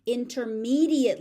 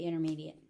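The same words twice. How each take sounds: First: "intermediate" emphatic with a clear T; stressed, pronounced T. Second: Said in the usual way. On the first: Shown as a demonstration. Teacher contrasting intermediate with advanced level, emphatic with T. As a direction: punch "intermediate" and sound its T. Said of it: "unless I am stressing it". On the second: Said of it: "If I'm speaking normally".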